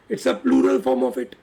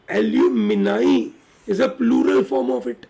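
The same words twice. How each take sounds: First: Said in the usual way. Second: Each word spaced out slowly for the class; slow and clear so students can note "Alumni is a plural form of it"; slow dictation. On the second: Shown as a demonstration. Teacher dictating to the class, very slow and deliberate. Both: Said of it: "याद रहेगा सबको".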